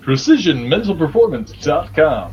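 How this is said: It is said in a put-on radio announcer voice.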